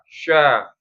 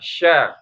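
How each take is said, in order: First: The sound is made with the lips pushed forward. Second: The sound is made with the middle of the tongue. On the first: The speaker calls it wrong. "Ini menjadi bibir juga kadang" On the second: The speaker calls it right. "Shin itu kan tengah lidah ya"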